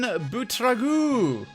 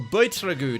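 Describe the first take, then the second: First: The name is pronounced with Flemish sounds. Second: The name is pronounced with English sounds. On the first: "whether you're Flemish" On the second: "pronouncing it the English manner"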